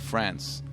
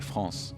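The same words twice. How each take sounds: First: It is said with an English pronunciation. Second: It is said with a French pronunciation. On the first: This is said so English speakers understand. "I say France, because otherwise they wouldn't get it" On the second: This is how the speaker would say it at home. "I don't say France"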